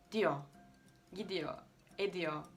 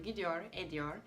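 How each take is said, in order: First: "gidiyor" and "ediyor" with the final r dropped, as gidiyo, ediyo; İzmir dialect pronunciation. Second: "gidiyor, ediyor" with the final r clearly sounded; standard pronunciation. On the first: Retold or imitated. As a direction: say "Diyor, gidiyor" the İzmir way, ending on a bare o with no r. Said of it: "Mesela İzmir'de insanlar şöyle diyor". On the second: Shown as a demonstration. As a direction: say "gidiyor" fully, ending on a pronounced r. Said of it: "Benim öğrendiğim şekil şu".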